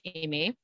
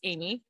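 First: The name is said with a French pronunciation. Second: The name is said with an English pronunciation. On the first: He is mad or wants attention. "he calls me Amy in French" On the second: Everything is fine. "when he's just talking to me and it's just fine"

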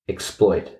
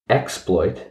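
First: The stress falls on the second syllable. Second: The stress falls on the first syllable. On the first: It is a verb: to take advantage of someone. "and one is the verb" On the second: It is a noun: a bold or daring deed. "One is the noun"

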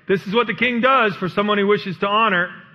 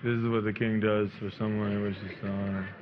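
First: It is proclaimed loudly and with enthusiasm. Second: It is muttered grudgingly, like falling gravel.

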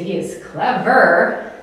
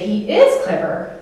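First: It sounds sarcastic, meaning the opposite. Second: It sounds sincere, meaning he is smart.

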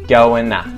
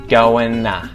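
The two takes are said the same way.

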